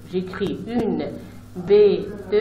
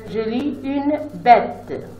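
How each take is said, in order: First: Said in the usual way. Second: Une bête read slowly and clearly. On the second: Shown as a demonstration. Teacher reading the finished word slowly to pupils. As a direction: say it slowly for the class. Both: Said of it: "et quand je lis".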